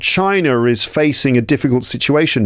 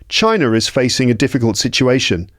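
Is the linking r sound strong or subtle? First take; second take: strong; subtle. First: A strong r sound links China and is. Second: A light r sound links China and is. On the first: The speaker calls it wrong. "I wouldn't really emphasize it like I did just then" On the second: The speaker calls it right. "Instead, we'd say"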